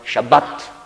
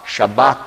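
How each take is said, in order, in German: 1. Das betonte A wird kurz gesprochen. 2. Das betonte A wird lang gesprochen. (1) "das Tätigkeitswort Shabbat, ein kurzes A" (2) "Schabbat als Hauptwort, der Name des Tages, hat ein langes A"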